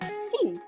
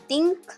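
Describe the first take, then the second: First: It begins with a hissing s sound. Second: It begins with a plain t sound. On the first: "atau s" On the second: "bunyi te"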